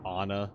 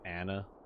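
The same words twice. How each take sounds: First: The first vowel is an open 'ah' sound. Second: The first vowel is a sharp 'a' sound. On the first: "pronounce A as ah" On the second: "a sharp A"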